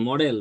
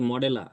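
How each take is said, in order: First: The word ends cleanly on the final consonant. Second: An extra vowel is added after the final consonant. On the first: "যেমন আপনি বলতেছেন মডেল" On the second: "মডেলের পরে এ যুক্ত করে বলে দিচ্ছেন যে মডেলা"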